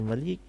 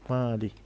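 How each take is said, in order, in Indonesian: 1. Vokal setelah m pendek. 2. Vokal setelah m panjang. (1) "kalau Malik berarti dia penguasa ataupun raja" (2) "dibaca dipanjang dua alif pada mim"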